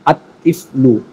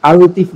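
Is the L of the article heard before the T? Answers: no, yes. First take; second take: no; yes. First: The L blends into a doubled T sound. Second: The article is said with a clear L sound. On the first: The speaker calls it right. "লামের উচ্চারণ হবে না" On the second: The speaker calls it wrong. "আল তিফলু এমনটা নয়"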